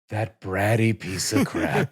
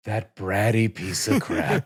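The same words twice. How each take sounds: First: It is said in a warm, affectionate way. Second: It is said in a warm, affectionate way.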